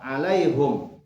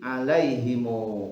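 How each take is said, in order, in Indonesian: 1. Huruf h diberi vokal u dan berakhir dengan m. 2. Huruf m terakhir diikuti vokal u. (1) "haknya itu dengan dhammah" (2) "mim jamak disilahkan disambungkan dengan waw"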